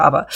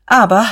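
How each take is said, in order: First: Said in the usual way. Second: Aber said louder and higher, hammered; forceful repeat. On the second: A narrator's reading. Diederich reasserts himself to Fischer, loud and forceful. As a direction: cut back in with a strong Aber. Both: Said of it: "wiederholte Diederich stark".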